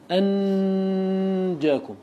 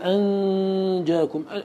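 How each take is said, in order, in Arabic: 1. النون مُظهرة بوضوح مع غنة. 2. النون مخفاة، فيها غنة فقط. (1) "لا أقول أنجاكم، هذا إظهار بغنة، لا" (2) "فتقول أنجاكم، أين يكون اللسان؟ يكون في موضعه"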